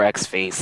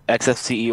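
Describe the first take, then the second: First: X-Face said ex-face; "X-Face" pronounced like X plus face; name read as word. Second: X F C E said letter by letter; "X F C E" as separate letter names; spelled-out name. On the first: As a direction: run X-Face together as a word, not letters. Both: Shown as a demonstration. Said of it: "most confusing names".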